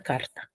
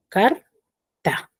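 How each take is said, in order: First: Said in the usual way. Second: "car", long pause, "ta"; carta split into syllables. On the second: Shown as a demonstration. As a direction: say carta as two detached syllables. (carta, separada en sílabas) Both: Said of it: "Carta tiene dos sílabas".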